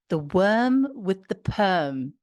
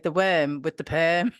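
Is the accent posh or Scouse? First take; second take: posh; Scouse. First: It is said in a posh English accent. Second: It is said in a Scouse accent. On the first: "I'm going to say it posh" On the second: "then I'm going to say it in a Scouse accent"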